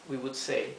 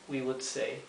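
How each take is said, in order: No difference in how they are said.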